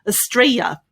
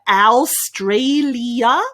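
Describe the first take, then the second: First: Syllables are dropped, leaving just three. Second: Every syllable of the word is pronounced fully. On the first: The speaker calls it right. "erase some of those syllables and just make three syllables there" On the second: The speaker calls it wrong. "Many people say Australia. ... that's not the way that we pronounce it"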